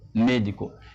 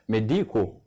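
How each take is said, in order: First: The stress falls on the first syllable. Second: The stress falls on a later syllable. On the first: The speaker calls it right. "accent tonique là, trouvé là" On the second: The speaker calls it wrong. "parfois il y a des gens qui disent médico. Non"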